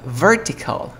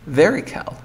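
First: Vertical with a clear T; "vertical" keeping the T after R; full T pronunciation. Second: Vertical said "ver-ical", no T; "vertical" with the T left out; dropped T. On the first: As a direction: say "vertical" as written, T sounded. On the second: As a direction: say "vertical" with R into vowel. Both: Shown as a demonstration. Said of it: "Dirías".

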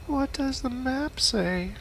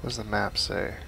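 First: High, slow goofy voice; silly high voice. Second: Said in the usual way. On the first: Pretend. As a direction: stretch it out in a squeaky voice. Repeats line in silly voice.

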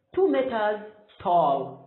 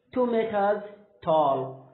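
The two takes are said the same way.

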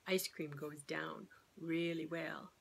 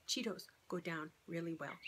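First: Hushed, slow admission; a sly whispered confession; confiding whisper. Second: Said in the usual way. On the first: Real, not acted. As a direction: whisper it like a guilty secret. Sarcastic aside after the ice cream rule.

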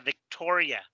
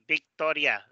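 First: "Victoria" begun with a buzzing v, teeth on lip; English V. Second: "Victoria" begun with a b, both lips touching; Spanish B-like V. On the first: Teacher contrasting English with Spanish, careful English V. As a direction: make the first sound of "Victoria" a true English v. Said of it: "no es como el español que dice Victoria". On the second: Teacher showing what English does not do, Spanish B sound. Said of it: "donde los labios tocan". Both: Shown as a demonstration.

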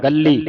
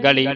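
First: ਗੱਲੀ with a held double l; tight doubled consonant. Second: ਗਲੀ with one light l; loose single consonant. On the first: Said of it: "ਕੱਸ ਕੇ ਬੋਲਣਾ ਇਹਨੂੰ". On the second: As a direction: say ਗਲੀ loosely, without doubling the l. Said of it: "ਪੋਲਾ ਬੋਲਦੇ ਹਾਂ". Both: Shown as a demonstration.

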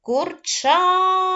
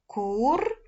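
First: КУРЧАТА called out high and loud, ЧА stretched long; loud drawn-out call on the ЧА of КУРЧАТА. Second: КУРЧАТА split into кур, ча, та with pauses; syllable by syllable. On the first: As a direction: holler КУРЧАТА, holding the stressed ЧА. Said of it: "Гукаємо слово". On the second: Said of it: "Поділяємо слово курчата на склади". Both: Shown as a demonstration.

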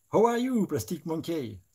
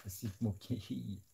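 First: Put-on much higher, loud English-accented greeting; hammed-up English accent. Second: Said in the usual way. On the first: Painter greets Plastic Monkey in a hammed-up English accent. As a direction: sing out the name in a comic English accent.

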